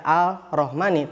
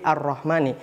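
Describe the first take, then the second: First: The L is pronounced before the R. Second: The L is silent, merging into the R. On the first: The speaker calls it wrong. "nggak dibaca Al-Rahmani" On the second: The speaker calls it right. "tapi Ar-Rahmani"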